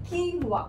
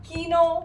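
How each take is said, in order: First: It is said in two syllables as keenwa. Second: It is said in two syllables as keeno. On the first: The speaker calls it right. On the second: The speaker calls it wrong.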